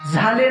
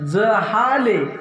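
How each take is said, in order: First: The word is said in two syllables. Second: The word is said in three syllables. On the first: It means the thing is finished and over. The speaker calls it wrong. "सुख झाले नाही बरं का" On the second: It means the thing has been attained. The speaker calls it right. "पण जहाले किंवा जाले"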